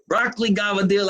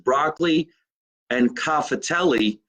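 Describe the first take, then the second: First: The pasta word is clipped with dialect sounds. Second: The pasta word is said in full standard form. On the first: "My mother would say" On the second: "The correct pronunciation is"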